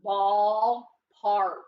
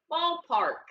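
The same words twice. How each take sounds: First: Ballpark said low and loud, BALL stressed; teacher models Ballpark loudly; lower, louder model. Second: Ballpark repeated higher and lighter; cheerful confirming repeat of Ballpark. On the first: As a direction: give Ballpark a firm low read, first syllable strong. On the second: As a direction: answer again with Ballpark up high. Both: Shown as a demonstration. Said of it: "What's that word?".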